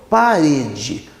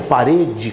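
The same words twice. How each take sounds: First: "parede" bem devagar, alongando o "re"; ênfase no RE de parede. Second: Said in the usual way. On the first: Shown as a demonstration. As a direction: estique a sílaba forte de "parede". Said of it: "o re, que é a sílaba do meio". ("parede" pausado, com o "re" tônico prolongado)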